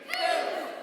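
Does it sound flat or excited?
flat. It is said flatly, without excitement.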